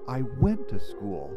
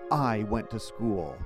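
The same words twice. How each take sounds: First: The word went carries the stress. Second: The word I carries the stress. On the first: "if I emphasize the second word" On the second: "I could emphasize the first word"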